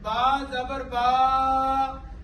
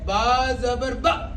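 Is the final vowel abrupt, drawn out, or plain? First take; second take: drawn out; abrupt. First: The final vowel is stretched out long. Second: The final vowel is cut off with a jolt. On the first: "इसको क्या कहते हैं? खींचना।" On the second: "और झटका क्या है?"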